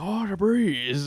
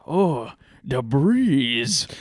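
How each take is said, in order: First: Slow, drawn-out mock Asian accent, pitched higher; imitating an Asian man's accent, savouring the breeze. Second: Slow, drawn-out mock Asian accent, lightly done; lazy imitated Asian accent, sighing at the cool air. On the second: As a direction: stretch out the breeze in a put-on Asian accent. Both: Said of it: "he's strong Asian accent".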